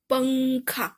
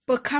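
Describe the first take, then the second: First: It is said with the nasal sound. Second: It is said without the nasal sound. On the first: The speaker calls it right. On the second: The speaker calls it wrong.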